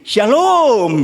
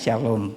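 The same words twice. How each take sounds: First: It is said in the student's unusual, stylized way. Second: It is said in a plain, ordinary way.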